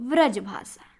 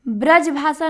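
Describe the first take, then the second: First: The first word begins with a v sound. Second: The first word begins with a b sound. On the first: The speaker calls it right. "सही होता है व्रज भाषा" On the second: The speaker calls it wrong. "ब्रज भाषा नहीं है"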